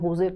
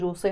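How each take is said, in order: First: The name begins with an H sound. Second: The name begins with a J sound. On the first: This is how the name is actually pronounced. "But San होजे pronounce करते हैं" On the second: This is how the name is written. "उसको लिखते तो जोसे हैं"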